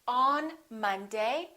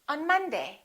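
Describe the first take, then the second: First: The vowel in 'on' is full. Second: The vowel in 'on' is reduced to uh. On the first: The speaker calls it wrong. "We don't say" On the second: The speaker calls it right. "we say on Monday. Un"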